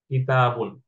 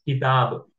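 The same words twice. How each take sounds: First: Said in the usual way. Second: किताब said with the ending dropped, stopping on the b; pausal form किताब. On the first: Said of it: "अगर मैं आपको कहूं कि इसको वक्फ करें". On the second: Shown as a demonstration. Teacher demonstrating the pause form to students, stopping the word. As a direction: stop on किताब, no final vowel. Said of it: "तो आप क्या पढ़ेंगे इसे".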